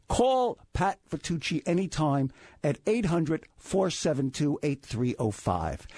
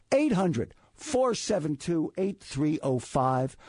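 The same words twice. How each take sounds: First: Said in the usual way. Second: Slow and clear, each digit weighted; slow, emphatic repeat. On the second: Shown as a demonstration. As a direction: spell the number out slowly.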